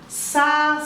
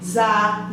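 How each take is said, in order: First: The syllable starts with a hissing s sound. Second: The syllable starts with a buzzing z sound. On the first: "Este é o S forte" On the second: "a mesma família com o S disfarçado"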